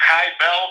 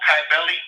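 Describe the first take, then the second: First: Kybele said as KY-bell; hard K, two syllables. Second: Kybele said as KY-bell-ee; hard K, three syllables. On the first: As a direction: say Kybele with a K sound and a silent final E. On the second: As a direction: say Kybele with a K sound and a final "ee". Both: Shown as a demonstration. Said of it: "spelled with a K sometimes".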